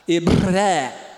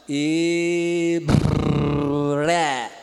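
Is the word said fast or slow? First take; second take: fast; slow. First: It is said quickly. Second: It is said very slowly. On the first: "Agora rápido" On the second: "Vamos bem devagarzinho"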